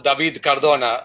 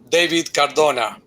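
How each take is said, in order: First: The name is said with a Spanish accent. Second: The name is said with an English accent.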